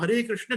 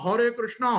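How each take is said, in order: First: The name ends without a final vowel. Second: The name ends with an added long a vowel. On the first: The speaker calls it right. "वास्तव में तो ये ऐसा है" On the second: The speaker calls it wrong. "क्यों ऐसा उच्चारण करते हैं"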